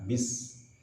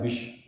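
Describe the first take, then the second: First: The s hiss is released freely. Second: The s hiss is held back. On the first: The speaker calls it right. "Jadi desisannya lepas" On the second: The speaker calls it wrong. "jangan sampai tertahan. Tidak bish"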